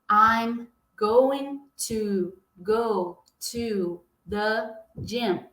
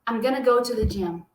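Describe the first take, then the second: First: Going to is said fully, word by word. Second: Going to is run together into gonna. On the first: "Ao invés dele falar" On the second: "vai juntar tudo e vai falar assim"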